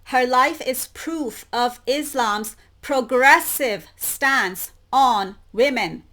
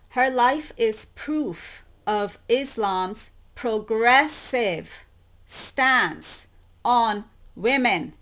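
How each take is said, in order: First: Louder, stressing progressive; loud pointed emphasis on progressive; emphasized reading. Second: Slow, deliberate reading of the quote; read out slowly. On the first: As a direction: lean hard on progressive, louder. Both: Shown as a demonstration. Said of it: "Let me emphasize that".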